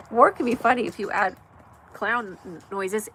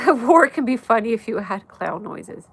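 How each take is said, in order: First: Said in the usual way. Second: Laughing. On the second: Real, not acted. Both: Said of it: "Tony, you crack me up".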